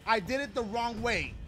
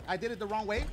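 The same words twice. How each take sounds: First: "I did it the wrong way" louder, falling at the end; emphatic admission. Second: "I did it the wrong way" with rising end on "way"; questioning realisation. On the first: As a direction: land "the wrong way" firmly, with a final fall. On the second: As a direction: ask "the wrong way" as if just noticing. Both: Real, not acted. Realises mistake, then repeats it.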